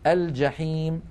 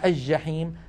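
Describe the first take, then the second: First: The L is clearly pronounced before J. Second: The L merges into a doubled J. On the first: The speaker calls it right. "لكن الفصحى أن نقول" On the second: The speaker calls it wrong. "ويقولون الجحيم"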